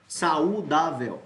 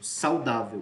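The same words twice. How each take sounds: First: The 'a' and 'u' are split into two syllables. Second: The 'au' is said together as one syllable. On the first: The speaker calls it wrong. "Eu não digo saudável" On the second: The speaker calls it right. "Eu digo sal, saudável"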